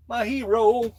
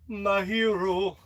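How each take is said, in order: First: Higher and louder, beaming; excited praise. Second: Slow tender repeat. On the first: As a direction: proclaim "My hero." up high with pride. Praises the figure. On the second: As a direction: let "My hero." linger, slow and fond. Repeats it slowly. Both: Pretend.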